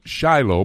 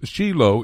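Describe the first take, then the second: First: The name is said the American way. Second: The name is said the Israeli way. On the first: The speaker calls it wrong. "We in the United States sometimes mispronounce it Shiloh" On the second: The speaker calls it right. "but it's Shiloh in Israel"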